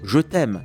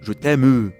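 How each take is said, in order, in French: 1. Le e muet final est silencieux. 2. Le e muet final est prononcé et accentué. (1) "On dit" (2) "pas « je t'aime », sauf [name] et les vaches"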